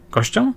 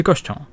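First: "Kością?" jumping high in a sharp rise; questioning echo. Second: Said in the usual way. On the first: Acted. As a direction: query "Kością?" with a big upward lift. Officer echoes word as question. (zdziwione „Kością?”, wysoko w górę)

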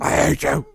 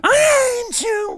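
First: Hammed-up echo of an anguished cry; mock scream. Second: Drawn-out, high-pitched imitation scream; mock scream. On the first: Echoing the cohost's screaming film quote, mock scream. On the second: Quoting Vader's screaming scene to the cohost, mock scream. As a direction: imitate an anguished film scream, stretched and high. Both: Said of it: "The one screaming".

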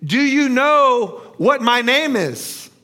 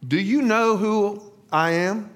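First: Slow, loud, high-pitched taunt; mocking. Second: Mildly sly, knowing question. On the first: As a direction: draw the question out mockingly. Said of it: "rephrased the question mockingly". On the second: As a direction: ask with a hint of a sly smile. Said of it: "smiled slyly and asked". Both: A narrator's reading.

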